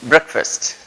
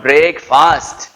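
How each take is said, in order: First: Breakfast said BREK-fust; Breakfast with a short brek; corrected Breakfast; correct pronunciation. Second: Breakfast drawn out as BREAK-fast; breakfast with break sounded fully; mock-wrong slow breakfast; wrong pronunciation, slow. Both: Shown as a demonstration. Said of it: "not breakfast".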